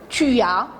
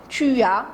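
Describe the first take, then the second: The two takes are said the same way.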